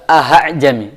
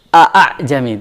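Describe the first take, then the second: First: The second vowel starts with an audible h sound. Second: The second vowel starts with a sharp glottal catch. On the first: "jangan sampai b ke h" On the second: "Bukan juga a a jami, tidak"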